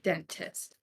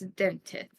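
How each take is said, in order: First: The s sounds are said plainly. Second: The s sounds are said with a lisp. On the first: "it sounds very much like dentist" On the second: "as if you're saying it with a lisp"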